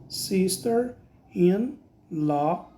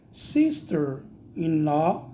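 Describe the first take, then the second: First: Very slow drawn-out "Sister-in-law"; slower repeat. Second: Slow careful "Sister-in-law"; slow model word. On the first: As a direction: stretch every syllable of "Sister-in-law". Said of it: "teacher repeats slower". (repetição muito lenta de "Sister-in-law") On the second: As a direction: say "Sister-in-law" slowly, rising. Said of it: "teacher models the word". (pronúncia pausada de "Sister-in-law") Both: Shown as a demonstration.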